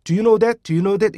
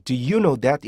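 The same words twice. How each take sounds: First: Higher, quick run-together "Do you know that?"; wrong demo, "Do you" blurred with no catch; no stop before YOU. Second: "do you know that" with a clean catch before "you"; measured, careful "do you know that"; stop before YOU. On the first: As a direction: rattle off "Do you know that?" as one word. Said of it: "이게 아니고". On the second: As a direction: separate "do" from a pressed "you". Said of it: "이렇게 한다 그랬잖아요". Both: Shown as a demonstration.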